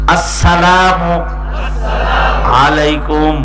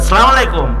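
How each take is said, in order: First: The greeting starts with a clear, strong 'as' sound. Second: The greeting starts without the opening 'as' sound. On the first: It means may peace be upon you. The speaker calls it right. "সালামের শুরু হামজা সুস্পষ্ট করে উচ্চারণ করা ওয়াজিব।" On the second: It means may you die. The speaker calls it wrong. "সালাম উচ্চারণও করতে পারে না।"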